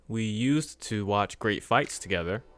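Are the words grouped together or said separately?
separately. The words are said separately, not grouped.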